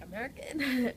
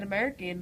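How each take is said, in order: First: "American" exaggerated, higher at the start and falling; playful overdone repeat of "American"; mocking own slip. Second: "American" slipping between Geordie and American; "American" in a muddled accent; slipped accent. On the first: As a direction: send up your own odd "American". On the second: Real, not acted. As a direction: say "American" with the accent accidentally creeping in. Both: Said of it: "I said American".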